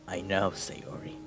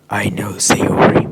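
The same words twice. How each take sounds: First: It is spoken in a normal voice. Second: It is spoken in a whisper.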